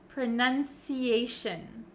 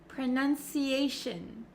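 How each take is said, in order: Both takes have the same delivery.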